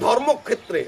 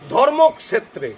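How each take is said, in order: First: The consonant clusters are blended together. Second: The consonant clusters are split apart. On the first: This is the everyday Bengali way of saying it. The speaker calls it wrong. "আমরা বলি না, উচ্চারণ পুরা ভুল।" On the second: This is the proper Sanskrit way of saying it. The speaker calls it right. "আপনার সমস্ত যুক্তবর্ণ ভেঙে বলতে হবে।"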